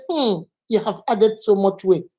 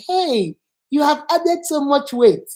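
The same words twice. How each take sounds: First: Judging hum, then an understated verdict; disapproving remark. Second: Drawn-out, slow, lightly teasing greeting; friendly remark. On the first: Teacher showing someone judging weight gain, disapproving. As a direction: open on a hum and pass judgment. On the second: Teacher showing a friend noting weight gain, friendly. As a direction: say it openly, with a slow lift on the greeting. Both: Shown as a demonstration. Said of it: "You see the difference?".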